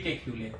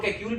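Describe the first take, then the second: First: केक्यूले with a final 'lay' syllable; केक्यूले ending in a sounded 'ay' after the l; preferred pronunciation. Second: केक्यूल said without a final 'ay', ending on the l; केक्यूल ending 'kyool', no vowel after the l; alternative pronunciation. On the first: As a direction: say केक्यूले as 'ke-kyoo-lay'. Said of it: "I think it should be केक्यूले". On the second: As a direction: say केक्यूल as two syllables after 'ke', 'kyool'. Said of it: "कुछ लोग केक्यूल भी कहते हैं". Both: Shown as a demonstration.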